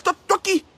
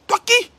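First: Raised voice on toi; scornful challenge; high challenge. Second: Much higher and louder, rising on qui; outraged scornful retort; shrieking challenge. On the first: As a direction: demand it sharply. Challenging rival, repeated. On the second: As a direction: throw it up in outrage. Repeats challenge even higher. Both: Real, not acted.

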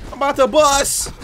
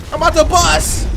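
First: Excited build. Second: Louder hype. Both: Real, not acted.

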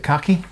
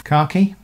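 First: Khaki with a short first vowel, like "cacky"; alternative pronunciation. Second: Khaki with a long "ah", like "car-key"; standard UK pronunciation. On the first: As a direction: say khaki as KACK-ee. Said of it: "Some people pronounce it khaki". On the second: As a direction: say khaki as KAH-kee, British style. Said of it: "The standard U K pronunciation is". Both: Shown as a demonstration.

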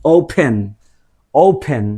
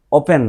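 First: ওপেন with a gliding "ou" and an aspirated p; correct open. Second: ওপেন with a flat "o" and a plain p; ওপেন said flat, the Bangla way; wrong open. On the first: Teacher modeling the right ওপেন. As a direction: say ওপেন as "oupen". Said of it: "same আমরা এটাকে বলতে পারি". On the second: Teacher showing the ওপেন to avoid. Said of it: "ওপেন নয়". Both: Shown as a demonstration.

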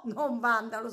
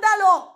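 First: Said in the usual way. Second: Blurted out loud and high; sudden shouted tic. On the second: Real, not acted. (tic urlato all'improvviso) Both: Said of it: "Non Vandalo, scusami".

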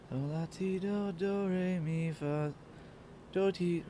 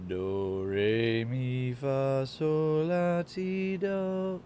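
First: Singing a vocal scale, getting it wrong; sung, stumble through a do-re-mi warm-up; sung, fumbled scale. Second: Singing do-re-mi up the scale; sung, climb a warm-up scale, straining at the top. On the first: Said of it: "trying to do one of those vocal warm-ups". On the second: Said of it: "one of those vocal warm-ups I did in high school". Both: Shown as a demonstration.

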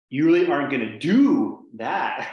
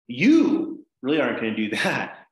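First: "do" stretched out, loud and high; slow down and punch the word "do"; stress on DO. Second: Accent the first word, "You", to single out the person; stress on YOU. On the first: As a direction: lean hard on "do" before "that". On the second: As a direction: hit "You" hard, then let the rest follow. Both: Shown as a demonstration. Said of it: "I acted out the accent".

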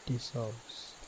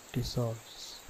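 The two takes are said the same way.

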